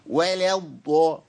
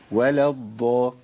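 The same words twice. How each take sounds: First: Slow ولا bent to "weh-leh" before a heavy الضا; laboured imala. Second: Lower, slow ولا الضا with a light, clean open A in ولا; easy correct reading. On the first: Teacher shows what not to say, laboured imala in ولا. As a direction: strain ولا toward E, dragging it into الضا. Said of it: "وليه تعمل في نفسك كده؟". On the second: Teacher shows pupils the nicer way, easy untilted ولا الضا. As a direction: let ولا flow untilted into a full ض in الضا. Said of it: "ما تخليها كده حلوة". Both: Shown as a demonstration.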